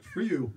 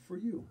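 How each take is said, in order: First: Louder, higher, punched FOR YOU; alternative reading. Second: High, gentle FOR YOU; formal, deferential. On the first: Shown as a demonstration. Storyteller showing how "for you" could be said, punched. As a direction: toss out FOR YOU loud and brisk. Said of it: "could be like". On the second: Acted. Offering lollipops to an armed guard, high and deferential. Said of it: "the more formal version".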